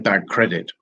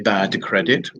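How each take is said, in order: First: The first word ends in a G-like sound. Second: The first word ends in a clear D sound. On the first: The speaker calls it right. "we say bad credit. And it sounds a bit like the G" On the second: The speaker calls it wrong. "we don't say bad credit"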